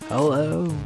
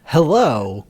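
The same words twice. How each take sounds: First: The greeting sounds sad and depressed. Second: The greeting sounds cheerful and upbeat.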